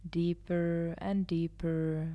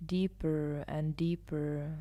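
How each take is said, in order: Both takes have the same delivery.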